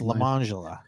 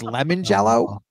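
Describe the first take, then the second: First: It sounds like one name, Lemangela. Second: It sounds like the two words lemon jello. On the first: The name is said the way its owner says it. "she pronounced it Lemangela" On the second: The name is read as it is spelled. "it was lemon jello"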